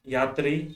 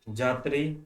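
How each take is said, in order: First: The word begins with a 'y' sound. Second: The word begins with a 'j' sound.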